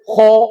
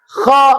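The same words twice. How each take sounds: First: The lips are pushed forward and rounded. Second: The mouth stays wide open, lips unrounded. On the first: The speaker calls it wrong. "tidak boleh bibir ikut mencucu seperti gho tadi" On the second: The speaker calls it right. "harus tetap mangap"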